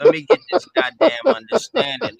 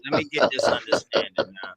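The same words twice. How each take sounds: First: High and loud, demanding to be heard; frustrated shout. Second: Said in the usual way. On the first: Real, not acted. Caller shouting over the host to get his question answered. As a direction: bark it out to take the floor.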